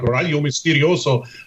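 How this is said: The name is pronounced with Spanish sounds. "I pronounce it like Spanish"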